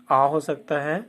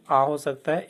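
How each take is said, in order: First: आ said as a long open aa; teacher sounding out आ. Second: आ said again as a long open aa; teacher repeating the आ sound. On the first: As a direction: stretch आ into a long aa. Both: Shown as a demonstration. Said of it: "ए का उच्चारण क्या क्या हो सकता है".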